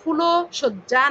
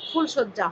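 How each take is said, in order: First: An o vowel is said after the l. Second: No vowel is said after the l. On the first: The speaker calls it wrong. "ফুলো সজ্জা না হয়ে" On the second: The speaker calls it right. "ফুলশয্যা হসন্ত হচ্ছে"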